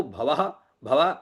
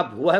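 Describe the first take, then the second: First: भवः with a in place of u, bha-va; mispronounced भवः; wrong vowel. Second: भुवः with a u in the first syllable; भुवः with first vowel u, breath at the end; as written. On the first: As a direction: open the first syllable of भवः to bha. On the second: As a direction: say भुवः as bhu-vah. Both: Shown as a demonstration. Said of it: "जैसे लिखा हो उसे वैसा ही बोले".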